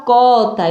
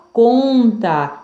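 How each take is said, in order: First: Cota with an open oral o; wrong oral vowel. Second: Slow conta with a nasal on; nasal vowel. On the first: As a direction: say cota without any nasal sound. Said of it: "Eu não falo". (cota sem som nasal) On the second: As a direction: stretch the on of conta through the nose. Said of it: "Som nasal". (conta com som nasal) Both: Shown as a demonstration.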